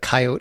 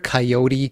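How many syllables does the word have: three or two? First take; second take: two; three. First: The word is said with two syllables. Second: The word is said with three syllables. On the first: "it quickly rolls off the tongue" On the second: "It's got like sort of like three syllables, takes a little longer to say it"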